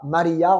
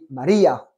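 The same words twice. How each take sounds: First: The middle syllable 'ri' is not stressed. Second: The middle syllable 'ri' is stressed. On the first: The speaker calls it wrong. "on ne dit pas Maria" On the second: The speaker calls it right. "il y a un accent, un tilde sur le i de Maria"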